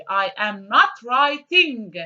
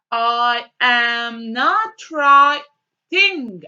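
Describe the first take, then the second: First: I am NOT writing, a little slow, NOT still stressed; repeated, less slow. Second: I am NOT writing, very slow with NOT leaned on; slow stressed not. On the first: Teacher repeating the model sentence for students, milder stress. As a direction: say it again, calmer and steadier. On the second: Teacher modelling the sentence slowly for students, NOT stressed. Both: Shown as a demonstration. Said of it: "And what should we do here?".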